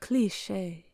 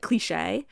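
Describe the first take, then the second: First: The ending is soft and subtle. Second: The ending is severe and harsh. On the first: This is how a French speaker says it. "the end is a little more subtle" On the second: This is how an English speaker says it. "less severe and harsh than"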